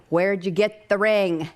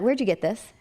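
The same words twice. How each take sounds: First: Slow, spaced-out "Where'd you get the ring"; mock-urgent, slowly hammered "Where'd you get the ring"; insistent question. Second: Quick question, pitched a little up; first, lighter asking; retold curious question. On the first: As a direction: demand it word by word, stretching "ring". Insistent second asking. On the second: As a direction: ask it with interest, unforced. First asking about the ring.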